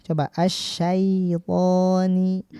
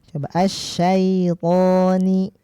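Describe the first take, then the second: No difference in how they are said.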